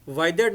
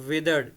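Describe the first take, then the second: First: The first vowel sounds like 'eye'. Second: The first vowel is a short 'i'. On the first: The speaker calls it wrong. "वाइदर्ड नहीं बोलेंगे इसको" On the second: The speaker calls it right. "हम इसको बोलेंगे विदर्ड"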